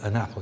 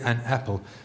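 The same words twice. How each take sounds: First: The n runs smoothly into the vowel. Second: A break separates the n from the vowel. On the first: The speaker calls it right. "The n goes on to the a" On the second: The speaker calls it wrong. "it sounds like a foreigner, like a German"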